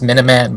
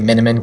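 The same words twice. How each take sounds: First: The name does not rhyme with cinnamon. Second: The name rhymes with cinnamon. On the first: This is the name's official pronunciation. "it's actually pronounced Miniman" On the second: This is the pronunciation the owner prefers. "because it just sounds like cinnamon"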